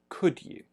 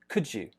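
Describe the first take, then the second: First: Could has a full rounded vowel. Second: Could has a weak neutral vowel, joined to you. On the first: "with a rounded lip" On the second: "when we say it quickly becomes more k, a flat, more neutral sound"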